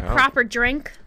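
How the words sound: It is said in an American accent. The speaker calls it wrong. "you can't say that with a quote-unquote American accent. It just doesn't sound as good"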